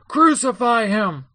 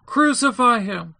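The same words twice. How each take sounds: First: High, slow, measured shout; raised, drawn-out demand; crowd's shout. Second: High, slow shout from a crowd; insistent shout. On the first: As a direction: call it out as a demanding mob. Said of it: "they kept shouting all the more". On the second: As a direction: press the demand, voice raised and drawn out. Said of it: "they kept shouting all the more, saying". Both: A narrator's reading.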